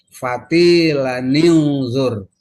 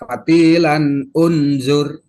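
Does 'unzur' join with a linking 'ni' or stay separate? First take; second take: joined; separate. First: The words are joined by an inserted 'ni' sound. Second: The two words are said separately without linking. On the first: The speaker calls it right. "Kemudian nun. Timbulkan. Kasih fatilaninzur. Nah gitu tuh" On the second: The speaker calls it wrong. "nggak boleh dibaca fatilan unzur, jangan"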